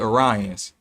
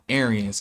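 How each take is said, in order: First: The first vowel sounds like 'or'. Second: The first vowel sounds like 'air'. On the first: The speaker calls it right. "technically it should be Orions" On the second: The speaker calls it wrong. "not Aryans"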